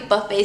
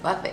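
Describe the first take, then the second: First: The word does not start like buffing. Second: The word starts like the word buffing. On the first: The speaker calls it right. "but it's pronounced the Buffet serum" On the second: The speaker calls it wrong. "I like to pronounce it Buffet because it's like, I like to think it's buffing my skin"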